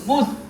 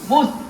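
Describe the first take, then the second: First: The vowel is a rounded 'u' sound. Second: The vowel is a rounded 'u' sound.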